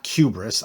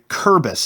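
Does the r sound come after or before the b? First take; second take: after; before. First: The r sound comes after the b. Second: The r sound comes before the b. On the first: The speaker calls it wrong. "I was mispronouncing that" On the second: The speaker calls it right. "Kurbis, not Kubris"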